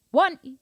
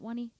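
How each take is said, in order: First: "one" hit high and loud; accent on first count. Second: Said in the usual way. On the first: Shown as a demonstration. Drum teacher showing accent on the beginning, loud "one". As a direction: punch the "one" of "one E". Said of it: "accent at the beginning". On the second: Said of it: "So if you're going no accent".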